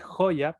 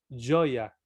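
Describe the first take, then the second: First: The first consonant is not sounded like Spanish LL. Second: The first consonant is sounded like Spanish LL. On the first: This is how the spelling reads. The speaker calls it wrong. "se lee joya" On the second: This is how Brazilians actually say it. The speaker calls it right. "pero se pronuncia joya, ¿no? Como doble L"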